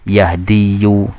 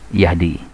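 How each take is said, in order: First: The word ends with an added 'yoo' sound. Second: The word ends with a plain 'ee' sound. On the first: The speaker calls it wrong. "kalau diucapkan terasa berat" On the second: The speaker calls it right. "ringan diucapkan"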